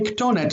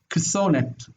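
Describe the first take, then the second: First: The consonant before -onet is a t sound. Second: The consonant before -onet is a th sound. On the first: This is the form actually used. The speaker calls it right. "they preferred to say ktonet" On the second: This is how the old language would pronounce it. The speaker calls it wrong. "taf without dagesh would have been pronounced like a th"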